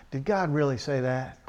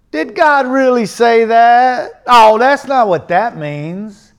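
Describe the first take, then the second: First: Low-key doubting. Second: Loud, high, slowly stretched mimicry; mock doubting. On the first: Acted. Preacher voicing a doubter's question, quiet and sceptical. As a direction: softly put doubting question. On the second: Preacher imitating doubters of scripture, loud mock protest. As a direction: drag it out loudly in mock protest. Mocking doubters, repeating their question.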